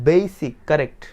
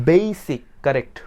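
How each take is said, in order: No difference in how they are said.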